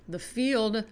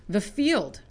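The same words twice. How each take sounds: The two takes are said the same way.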